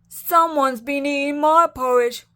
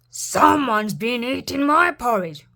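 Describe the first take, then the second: First: It is said in a crying voice. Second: It is said in a growling voice.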